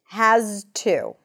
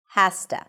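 First: The word has ends with a voiced z sound. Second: The word has ends with a voiceless s sound. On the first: "there is a z sound at the end" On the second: "the voiceless consonant, affects the voice consonant"

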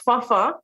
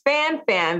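First: The name is said in its Haitian pronunciation. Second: The name is said in its English pronunciation. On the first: "It's actually of Haitian descent. It's pronounced Fafa" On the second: "in our English language, it is pronounced Fanfan"

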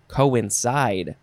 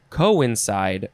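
First: The stress is on the last syllable. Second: The stress is on the first syllable.

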